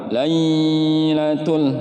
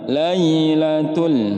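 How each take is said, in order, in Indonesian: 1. Suku kata 'lai' dibaca panjang. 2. Suku kata 'lai' dibaca cepat. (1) "nggak boleh ditahan" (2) "hanya Lailatul"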